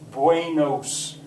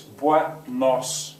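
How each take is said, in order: First: The vowels glide into diphthongs. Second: The vowels stay short and pure. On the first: The speaker calls it wrong. "That is terrible Spanish" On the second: The speaker calls it right. "It's buenos"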